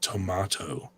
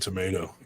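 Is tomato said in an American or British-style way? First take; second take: British; American. First: Tomato is said in a British-style way. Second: Tomato is said in a plain American way. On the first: This is how the child says it after watching cartoons. The speaker calls it wrong. "It's tomato" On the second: This is the normal way the speaker says it. The speaker calls it right. "will not say tomato"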